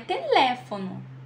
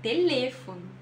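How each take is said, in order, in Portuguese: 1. O E tónico soa aberto, como o é em português. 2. O E tónico soa fechado, como o e em espanhol. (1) "não é teléfono" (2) "é teléfono"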